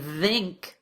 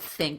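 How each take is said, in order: First: The th sound is voiced, with vibration. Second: The th sound is voiceless, without vibration. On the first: The speaker calls it wrong. "feels wrong and feels difficult to say" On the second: The speaker calls it right. "instead of"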